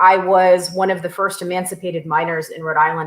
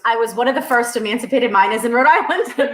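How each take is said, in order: First: It is said in a neutral accent. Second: It is said in a strong Rhode Island accent.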